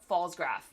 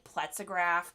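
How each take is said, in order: First: It begins with 'falls' and has two syllables. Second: It begins with 'pletz' plus an extra middle syllable. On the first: The speaker calls it right. "nope, Fallsgraph. I'm learning" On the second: The speaker calls it wrong. "I always called it Pletzograph because I couldn't didn't know how to pronounce it"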